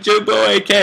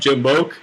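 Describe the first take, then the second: First: The letters A and K are spelled out separately. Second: The ending is blended into one syllable, 'boke'. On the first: This is the name as intended. The speaker calls it right. "No, it's fucking Jimbo A K" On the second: This is how others misread the name. The speaker calls it wrong. "everybody always would just call me"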